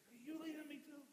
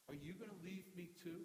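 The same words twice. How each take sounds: First: Higher, frustrated pleading question; frustrated, in anger. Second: Said in the usual way. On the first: Shown as a demonstration. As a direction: throw the question out in exasperation. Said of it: "He could have said it in anger". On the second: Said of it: "he could have said it frustrated".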